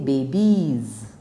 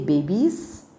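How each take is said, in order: First: The word ends with a buzzing Z sound. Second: The word ends with a hissing S sound. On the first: The speaker calls it right. "you say babies. Correct" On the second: The speaker calls it wrong. "just because there is an S, do you really say babies? No"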